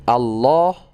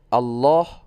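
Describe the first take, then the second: Both takes have the same delivery.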